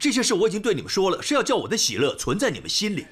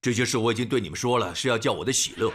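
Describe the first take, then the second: First: It is said in a smiling, joyful tone. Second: It is said in a sour, gloomy tone.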